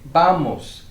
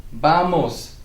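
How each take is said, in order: No difference in how they are said.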